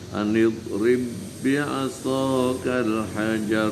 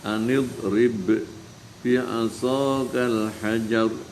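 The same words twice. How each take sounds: First: The b sounds merge into one doubled b. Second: The two b sounds are pronounced separately. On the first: This is how it is read aloud. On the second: This is the original written form.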